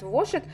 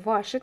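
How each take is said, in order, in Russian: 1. Первый гласный звучит как 'o'. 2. Первый гласный звучит как 'a'. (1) "Вообще говорят Вошит" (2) "пишет Ярнар Деним Вашит"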